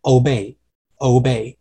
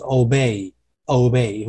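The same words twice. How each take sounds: First: OBEY the British way, without the added glide; British pronunciation. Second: OBEY the American way, slowly pressed downward; American pronunciation. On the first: Teacher contrasting British with American, British-style obey. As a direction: say obey as a British speaker would. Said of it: "如果说今天你是英式的话". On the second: Teacher contrasting American with British, American-style obey. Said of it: "如果今天是美式的话". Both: Shown as a demonstration.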